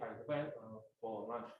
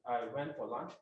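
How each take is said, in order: First: It has a hesitant pause after "went". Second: It is said smoothly without any pause.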